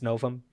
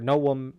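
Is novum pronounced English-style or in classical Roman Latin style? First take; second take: English-style; classical Roman. First: It is pronounced in an English-style way. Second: It is pronounced in classical Roman Latin style.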